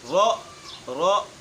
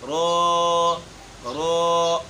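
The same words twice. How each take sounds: First: The sound is cut off with a sharp jerk. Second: The vowel is stretched out long. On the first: "झटका देकर पढ़ते हैं, ये भी बिल्कुल गलत है" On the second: "मद इसमें लेकर आते हैं, हालांकि इसमें मद मौजूद नहीं है"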